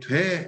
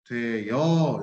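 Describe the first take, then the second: First: The two vowels merge into one syllable, dwae. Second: A y-glide is inserted before the second vowel, doe-yeo. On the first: "돼 이렇게 발음하면은 그죠 모음 축약이 된 거죠" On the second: "반모음이가 쓱 들어간 거 보이시죠?"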